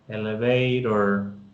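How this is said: American accent, the t sounds like a d. "esa pronunciación norteamericana"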